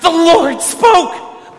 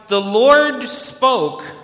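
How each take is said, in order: First: It is said with excited, enraptured awe. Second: It is said in a calm, plain way.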